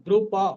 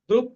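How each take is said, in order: First: The p is full, followed by a vowel. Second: The p is cut short with no vowel. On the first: The speaker calls it right. "পটা কিন্তু পূর্ণ" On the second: The speaker calls it wrong. "নয়"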